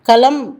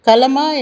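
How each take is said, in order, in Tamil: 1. இச்சொல் மெய்யெழுத்தில் முடிகிறது; உயிரொலி விடப்படுகிறது. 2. இச்சொல் முழுமையான இறுதி உயிரொலியுடன் முடிகிறது. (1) "களம் என்றுதான் சொல்கின்றோம்" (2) "கலமா என்று சொல்வதில்லை"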